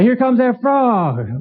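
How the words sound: It is said in a cheerful, optimistic tone.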